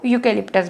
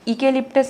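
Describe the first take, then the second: First: The word begins with a 'yoo' sound. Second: The word begins with an 'ee' vowel sound. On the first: The speaker calls it right. "इसको यूकेलिप्टस बोल रहे हैं" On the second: The speaker calls it wrong. "इकेलिप्टस नहीं बोल रहे हैं"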